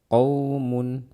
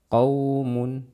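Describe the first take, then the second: The two takes are said the same way.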